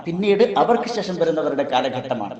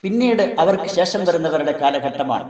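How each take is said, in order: Both takes have the same delivery.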